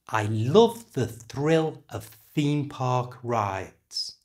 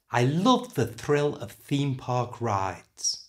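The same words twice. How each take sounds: First: The sentence is said at a slower pace. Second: The sentence is said at a faster pace.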